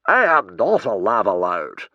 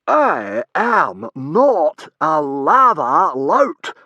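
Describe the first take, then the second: First: Loud, firm denial; indignant protest. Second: Very slow, loud, high howl; howled denial. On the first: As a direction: deny the accusation with offence. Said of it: "protested the man indignantly". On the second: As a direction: howl each word as loud as you can. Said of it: "howled the man as loud as he could". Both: A narrator's reading.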